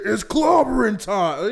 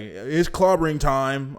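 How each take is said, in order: First: It is said loudly with strong energy. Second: It is said softly with little energy. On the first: The speaker fully commits to the line. The speaker calls it right. "say that with your chest" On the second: The speaker is only half-hearted about it. The speaker calls it wrong. "in a very mild type of tone"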